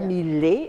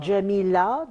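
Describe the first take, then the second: First: The name begins with a 'y' sound. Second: The name begins with a 'j' sound. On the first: This is the Turkish form of the name. "ils disent Ya" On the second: This is the Arabic form of the name. "les Turcs ne disent pas Ja"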